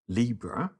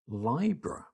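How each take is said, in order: First: The first syllable differs from the start of 'libration'. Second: The first syllable matches the start of 'libration'. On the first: This is the familiar, common pronunciation. The speaker calls it wrong. "I'm going to say it how I've always said it to start off with" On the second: This follows the Latin root. The speaker calls it right. "it turns out it should be pronounced Libra"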